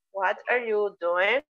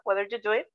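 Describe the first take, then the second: First: Slow, careful "What are you doing?" with each word separate; teacher's unhurried model question; slow model sentence. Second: Said in the usual way. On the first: Shown as a demonstration. Teacher models the target sentence slowly.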